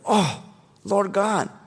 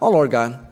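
First: It is said with overwhelmed bewilderment. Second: It is said calmly, without bewilderment.

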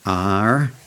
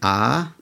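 First: The letter is said in an American accent. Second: The letter is said in an Australian accent. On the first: Listeners catch the intended letter. "just so they get the spelling right" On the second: Listeners may mishear it as another letter. "Americans think I'm saying A for apple"

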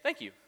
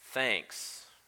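First: It is said quickly and casually. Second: It is said in a cutting, sarcastic way.

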